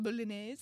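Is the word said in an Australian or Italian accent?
Italian. It is said with a put-on Italian accent. "or something like"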